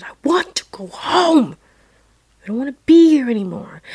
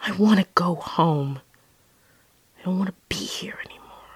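First: High-pitched mock scream of a child; retold scream. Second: Subdued plea, fading to a hush; tearful plea retold. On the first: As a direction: cry it out, pleading to be taken away. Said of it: "And I screamed again". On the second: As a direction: say it small, trailing into near-whisper. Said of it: "started crying".

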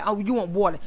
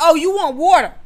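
First: Said in the usual way. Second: High, loud, emphatic exclamation; exaggerated guessing. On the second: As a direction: announce the guess loudly to provoke an answer. Retold goading child with wrong guess.

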